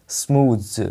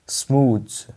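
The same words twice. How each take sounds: The two takes are said the same way.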